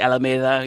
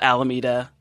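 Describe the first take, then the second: First: It is said with a Spanish pronunciation. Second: It is said with an anglicized pronunciation. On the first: "Which is really" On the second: "I'm from a town called"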